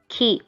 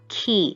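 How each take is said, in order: First: The vowel is kept short. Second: The vowel is drawn out long. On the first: The speaker calls it right. "just key" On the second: The speaker calls it wrong. "It's not key"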